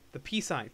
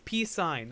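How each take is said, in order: First: Said in the usual way. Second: "Peace Sign" said higher and louder; emphatic repeat. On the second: Real, not acted. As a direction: insist on "Peace Sign" with a push. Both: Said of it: "that's the name of the song".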